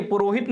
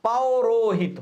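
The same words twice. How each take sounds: First: पुरोहित said with a short plain पु, shown as the wrong form; पुरोहित with a plain u vowel, not au; wrong form purohit. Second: पौरोहित with a clear au in the first syllable; पौरोहित opening on a full au vowel; correct form paurohit. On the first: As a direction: say पुरोहित as the mistake to avoid. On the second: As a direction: stress the पौ of पौरोहित so it contrasts with पु. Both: Shown as a demonstration. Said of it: "पुरोहित नहीं होता".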